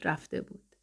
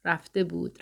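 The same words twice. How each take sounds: First: Last echo whispered and far away; fading to a whisper. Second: A softer echo of the lyric; fading echo. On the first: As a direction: breathe the words out as the song dies. («رفته بود» نجواگونه و محو، پایان آواز) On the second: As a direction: let the repeated words drift away. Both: Acted.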